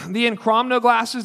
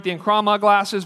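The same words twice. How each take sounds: First: "Enchromno" with a stray n before the final o; brand name said wrong as "Enchromno"; mispronounced Enchroma. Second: "Enchroma" said cleanly as en-KRO-ma; brand name said right as "Enchroma"; corrected pronunciation. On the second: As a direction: fixes it to "Enchroma". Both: Real, not acted. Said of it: "I'm not saying it right".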